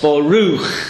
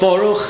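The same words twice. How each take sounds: First: The stress is on the last syllable. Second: The stress is on the first syllable. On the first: The speaker calls it right. "Each one of the words gets stressed at the end" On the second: The speaker calls it wrong. "It's not Baruch"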